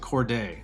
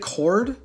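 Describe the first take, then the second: First: It has an extra syllable after cord. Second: It sounds exactly like the word cord.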